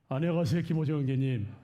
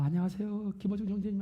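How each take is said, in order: First: It is said in a resonant, gugak-like voice. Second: It is said in a cutesy, pretty voice.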